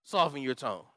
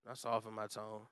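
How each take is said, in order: First: Said in the usual way. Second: Much softer, low and gentle; a hushed, softened delivery. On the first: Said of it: "What does that mean?". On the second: Shown as a demonstration. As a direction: pull the voice way down to show it.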